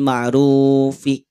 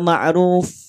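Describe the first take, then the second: First: The word ends on a vowel sound. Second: The word ends on a consonant sound. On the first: The speaker calls it wrong. "Tidak dibaca bil ma'rufi" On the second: The speaker calls it right. "ini baru dibaca ma'ruf"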